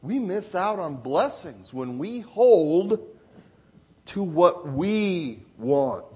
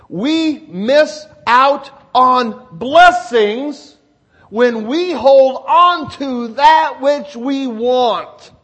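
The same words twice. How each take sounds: First: Said in the usual way. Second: Loud, very slow, every word of "We miss out on blessings" weighted; emphatic repetition. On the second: Real, not acted. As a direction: drive the point home word by word, loudly. Repeats the point for emphasis.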